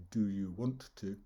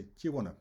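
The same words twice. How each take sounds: First: "want to" spoken as separate words; each word of "Do you want to" kept apart; full forms. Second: "Do you wanna" run together as one word; "want to" squashed into "wanna"; chunked and linked. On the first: Teacher showing what we don't say, full unlinked forms. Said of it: "We don't say". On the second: Teacher showing learners how we link words, chunked into one. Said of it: "chunking those words together". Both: Shown as a demonstration.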